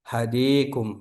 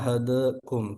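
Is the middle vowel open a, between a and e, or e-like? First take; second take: e-like; between. First: The middle vowel is tilted close to e. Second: The middle vowel is halfway between a and e. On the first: "baca imalah"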